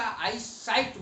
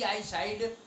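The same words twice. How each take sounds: First: "साइट" with a t ending; correct pronunciation. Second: "साइड" with a d ending; wrong pronunciation. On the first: Teacher prescribing the proper word, pronounced with final T. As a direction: close "साइट" on a sharp voiceless T. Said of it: "हमेशा आई साइट बोलना चाहिए". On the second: Teacher warning against the mistake, mispronounced with final D. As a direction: let "साइड" end on a voiced D. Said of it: "नहीं बोलना चाहिए". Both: Shown as a demonstration.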